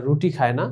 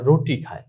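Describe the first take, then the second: First: রুটি with "roo", as in Bengali; Bengali u vowel. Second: রুটি said as "roh-tee", Urdu style; Urdu o vowel. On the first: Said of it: "Urdu ভাষায় তারা রুটি খায় না". (রুটি-তে Bangla উ-কার) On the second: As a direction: put "oh" in the first syllable of রুটি. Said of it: "তারা রুটি খায় না". (রুটি-কে ও-কার দিয়ে রোটি বলা) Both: Shown as a demonstration.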